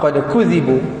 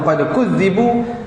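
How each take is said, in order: First: The middle consonant is short and single. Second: The middle consonant is held long and doubled. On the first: They thought the promises made to them were false. "tidak dibaca sabdu" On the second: They were sure they had been disbelieved. "Kalau dibaca dengan sabdu"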